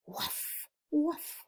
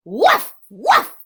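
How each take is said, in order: First: Small, hushed woofs; quiet dog bark. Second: High, very loud woofs; loud dog bark. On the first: Dog after the farmer's scolding, quiet little woofs. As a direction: bark softly under your breath. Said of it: "they quietly made their noises". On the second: Teacher reads the noisy dog to children, loud high barking. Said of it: "went the dog". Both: Acted.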